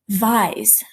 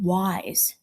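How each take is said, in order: First: The word begins with a V sound. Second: The word begins with a W sound.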